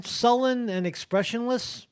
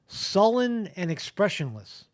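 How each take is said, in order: First: "sullen and expressionless" repeated higher with a doubtful rise; incredulous question. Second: Said in the usual way. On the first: Real, not acted. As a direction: scoff at the phrase, questioning rise. Mocking repeat of article wording.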